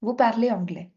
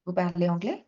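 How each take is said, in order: First: "Vous parlez anglais." with the voice falling at the end; statement tune. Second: "Vous parlez anglais?" with the pitch lifting on anglais; rising question. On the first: Teacher showing the class a plain statement, falling tune. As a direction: say "Vous parlez anglais." flat and final like a full stop. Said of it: "If I put a full stop, I'll say". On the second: Teacher showing students a question by intonation, rising tune. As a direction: lift the voice on "anglais?" to make it a question. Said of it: "you'll raise your tone". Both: Shown as a demonstration.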